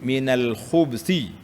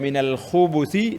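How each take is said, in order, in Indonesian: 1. Tidak ada vokal yang mengikuti bunyi b. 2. Vokal u pendek mengikuti bunyi b. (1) "dengan baris mati" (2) "dengan baris depan"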